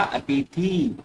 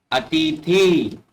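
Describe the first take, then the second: First: अतिथि softer, with shorter "thi"; corrected ending. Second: अतिथि slowly with stretched "theee"; wrong long ending. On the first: Teacher gives corrected अतिथि, softer shorter "thi". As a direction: say अतिथि without stretching it so far. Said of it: "तो क्या?". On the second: Teacher shows the mistaken अतिथि with long "thee". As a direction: say अतिथि drawing out the last vowel. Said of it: "थी नहीं हुआ". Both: Shown as a demonstration.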